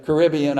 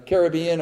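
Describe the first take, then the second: First: Caribbean stressed on the second syllable, kuh-RIB-ee-un; Caribbean with the beat on RIB; alternative pronunciation. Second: Caribbean stressed on the third syllable, kair-uh-BEE-un; Caribbean with the beat on BEE; alternative pronunciation. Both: Shown as a demonstration. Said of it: "I don't know which".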